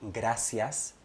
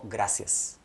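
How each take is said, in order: First: All the vowels are clearly pronounced. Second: The vowels are reduced and barely heard.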